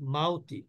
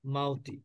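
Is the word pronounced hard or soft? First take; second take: soft; soft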